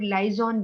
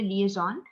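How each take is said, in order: First: The first syllable sounds like 'lie'. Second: The first syllable sounds like 'lee'. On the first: The speaker calls it wrong. "कुछ लोग लाइजॉन भी कह देते हैं इसको" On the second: The speaker calls it right. "The correct pronunciation है लिएजॉन"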